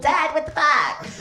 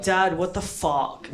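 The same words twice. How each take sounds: First: Put-on high, squeaky little-kid voice; child's high-pitched protest; eight-year-old self. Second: Said in the usual way. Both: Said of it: "Me, me at eight years old".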